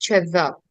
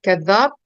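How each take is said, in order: First: The word begins with a ch sound. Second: The word begins with a k sound. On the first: This is the local spoken form. "यहाँ पे चज़्ज़ाब बोलते हैं" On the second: This is the classical form. "ये कुरान में आता है ना कज़्ज़ाब"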